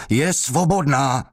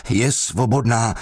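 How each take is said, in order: First: High, strained desperate shout. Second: Shouted. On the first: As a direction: scream it out under the blows. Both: Acted. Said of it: "křičel".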